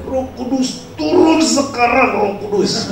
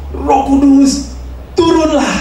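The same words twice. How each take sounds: First: High, pressing call to the Spirit; more insistent calling. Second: High, slow, drawn-out call to the Spirit; preacher calling out. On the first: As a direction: demand it now, more urgently. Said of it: "dia semakin kencang". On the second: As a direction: cry it out slowly from the pulpit. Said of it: "terus dia bilang". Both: Acted.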